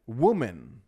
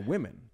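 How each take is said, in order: First: The vowels follow the spelling of the word. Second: The first vowel sounds like the i in 'win'. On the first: The speaker calls it wrong. "is how you'd think to say it just written down" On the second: The speaker calls it right. "We say women"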